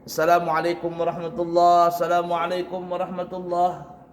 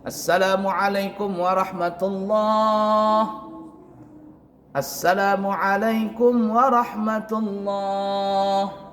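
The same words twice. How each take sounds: First: No pause separates the two greetings. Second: A short one-breath pause separates the two greetings. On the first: The speaker calls it wrong. "itu tidak ada beri jarak" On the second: The speaker calls it right. "Artinya satu kali nafas"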